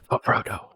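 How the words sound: The line is said in a soft whisper. The speaker calls it right. "Like that. He just whispered it"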